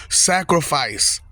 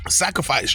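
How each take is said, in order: First: "Sacrifice" stretched slowly, each syllable weighted; drawn-out emphasis. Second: Said in the usual way. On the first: Shown as a demonstration. Preaching to viewers, "Sacrifice" drawn out slowly.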